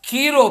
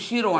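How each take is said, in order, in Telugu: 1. ఆ పేరు K శబ్దంతో మొదలవుతుంది. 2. ఆ పేరు SH శబ్దంతో మొదలవుతుంది. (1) "కీరో పేరట" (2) "కొంతమంది షీరో అంటారు"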